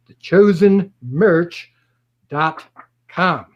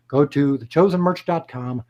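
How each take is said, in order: First: The chosen merch stretched slow and louder, then dot, com set apart; slow and deliberate, like dictating it; slow, spelled-out address. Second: Said in the usual way. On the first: Shown as a demonstration. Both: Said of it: "So one more time".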